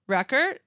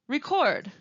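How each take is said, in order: First: The stress is on the first syllable. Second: The stress is on the second syllable. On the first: It is used as a noun. "first saying the noun" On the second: It is used as a verb. "and then the verb"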